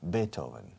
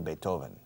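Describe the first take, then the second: First: The stress is on the first syllable. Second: The stress is on the second syllable. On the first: This is the German way of saying it. "do you accentuate the first syllable or the second? The first" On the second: This is the Spanish way of saying it. "In Spain they say Beethoven. It's not in German"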